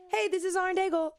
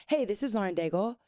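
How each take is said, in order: First: High-pitched radio liner greeting; squeaky, put-on radio hello; going up high. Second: Said in the usual way. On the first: Shown as a demonstration. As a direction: pitch the station ID way up. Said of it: "why do I always go up". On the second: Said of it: "then I start to change it".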